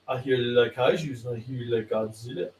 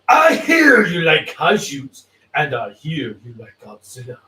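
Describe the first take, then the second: First: It is read flatly, without much force. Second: It is read with force and passion.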